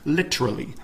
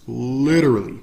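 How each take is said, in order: First: The t is a crisp, clear t. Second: The t is flapped like a soft d. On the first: "The literal pronunciation of literally is literally, but we don't say it like that" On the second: "we say literal, literally, literally"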